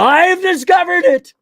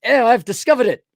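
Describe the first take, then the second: First: High, slow triumphant exclamation; mock eureka cry. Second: Lightly voiced posh gentleman, raised pitch; posh and handsome. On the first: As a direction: shout it like a mad scientist's big discovery. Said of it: "And he grabs the bottle". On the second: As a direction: say "discovered" like a smug, suave aristocrat. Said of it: "much more posh and handsome".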